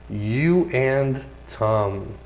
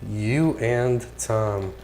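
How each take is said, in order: The two takes are said the same way.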